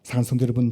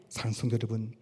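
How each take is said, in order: First: Said in the usual way. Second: Soft address. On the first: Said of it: "address repeated from 24". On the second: Acted. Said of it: "address repeated at 45".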